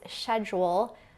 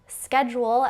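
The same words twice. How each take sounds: First: It is said with a British pronunciation. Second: It is said with an American pronunciation.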